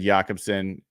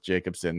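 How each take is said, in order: First: The name is given a Nordic-style pronunciation. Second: The name is given a plain English pronunciation. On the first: The speaker calls it wrong. "the Nordic pronunciation would make sense" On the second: The speaker calls it right. "I will go with Jacobson. That is that's the one"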